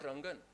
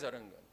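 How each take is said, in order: First: The name begins directly with an r sound. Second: The name begins with an added vowel before r. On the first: "Not Rangan" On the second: "always Arangan"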